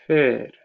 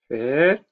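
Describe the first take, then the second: First: The pitch starts higher and falls at the end. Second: The pitch starts low and rises at the end. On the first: "Det börjar lite högre och sen slutar det lägre" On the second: "Tonen går upp i slutet"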